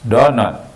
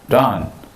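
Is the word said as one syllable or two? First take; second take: two syllables; one syllable. First: It is said as two separate syllables. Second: It is said as one short syllable. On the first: It is a stronger, more emphatic prohibition. "donut itu lebih menekankan lagi" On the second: It is a plain prohibition. "bisa don aja pakai T ujungnya"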